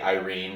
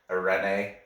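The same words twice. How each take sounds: First: The name is pronounced with an American accent. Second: The name is pronounced with a Spanish accent. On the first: "That's how you pronounce it, like American" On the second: "But she's Mexican, so I think it's like Irene"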